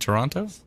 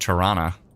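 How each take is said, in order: First: The second T is clearly pronounced. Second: The second T is dropped. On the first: The speaker calls it wrong. "as you pronounce the second T" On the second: The speaker calls it right. "That's how you should pronounce it"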